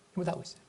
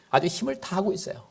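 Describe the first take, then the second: First: 힘을 said again much softer, almost to himself; softer repeat. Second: Said in the usual way. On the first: Shown as a demonstration. Preacher repeating to the congregation, much softer. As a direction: drop the voice right down on 힘을 다하고 있어요.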